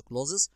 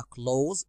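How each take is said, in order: First: "clothes" split into two syllables, clo-thes; "clothes" with the th and e sounded out; wrong pronunciation. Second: "clothes" said as one syllable, ending in a z sound; one smooth syllable: "clothes" like klohz; correct pronunciation. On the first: Teacher shows the mistaken way to say "clothes", two syllables. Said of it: "ما نقولش clothes". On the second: Teacher models the right way to say "clothes", one syllable. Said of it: "النطق الصح بتاعها clothes". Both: Shown as a demonstration.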